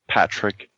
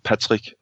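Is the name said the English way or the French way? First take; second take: English; French. First: The name is said with English pronunciation. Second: The name is said with French pronunciation. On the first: The speaker calls it wrong. "not Patrick" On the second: The speaker calls it right. "my name is really pr- pronounced Patrick"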